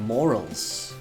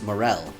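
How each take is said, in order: First: It sounds like the word 'morals'. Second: It sounds like the word 'morel'. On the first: The speaker calls it wrong. "I was saying morals for the mushroom" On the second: The speaker calls it right. "apparently it's morel"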